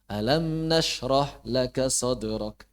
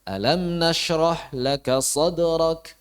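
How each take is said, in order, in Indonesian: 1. Akhirnya terdengar seperti pernyataan yang selesai. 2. Akhirnya terdengar jelas seperti pertanyaan. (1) "seperti selesai tuntas gitu kan. Gak pas" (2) "ada unsur tanyanya itu tegas"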